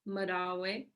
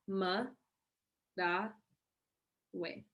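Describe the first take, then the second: First: The word is said at normal speed. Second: The word is said slowly, syllable by syllable.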